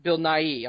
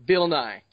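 First: "Nighy" said as two syllables, "nye-ee"; "Bill Nighy" with the second syllable "ee" added after "nye"; correcting himself, "Nighy" clearly in two beats; corrected name. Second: "Nye" said as a single syllable, rhyming with "eye"; "Bill Nye" with a short one-beat "Nye"; mistaken name. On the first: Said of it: "I'm sorry, not Bill Nye". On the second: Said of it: "not Bill Nye the Science Guy". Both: Real, not acted.

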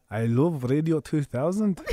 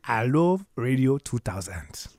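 First: Scottish accent. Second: Slow, breathy Nigerian accent. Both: Shown as a demonstration.

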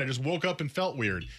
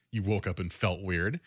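First: Lightly acted brush-off, statement falling at the end; mock excuse. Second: Lower, disbelieving question with a rising end; skeptical echo. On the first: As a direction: imitate a player playing it down. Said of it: "And he goes". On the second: Acted. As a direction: throw the excuse back as a doubtful question. Throwing the player's excuse back.

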